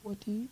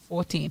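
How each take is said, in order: First: Rising, disbelieving Fourteen?; incredulous question. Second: Said in the usual way. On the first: Real, not acted. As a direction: echo Fourteen? as if shocked by it. Incredulous echo of her age.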